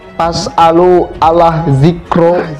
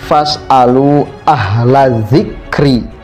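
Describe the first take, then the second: First: The first word begins with a p sound. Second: The first word begins with an f sound. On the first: The speaker calls it wrong. "Ini kan fatal" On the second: The speaker calls it right. "Itu baru ayat Al-Quran"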